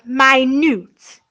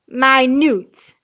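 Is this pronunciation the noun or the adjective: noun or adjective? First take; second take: adjective; adjective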